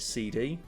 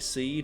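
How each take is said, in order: First: It is said as two letters, C and D. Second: It is said as one word, like seed. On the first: "maybe other people pronounce it C D" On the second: "So I pronounce it Seed"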